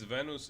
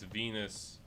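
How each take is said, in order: First: The word is pronounced the Polish way. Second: The word is pronounced the English way. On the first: "it's Venus in uh, in Polish" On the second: "It's Venus in uh, English"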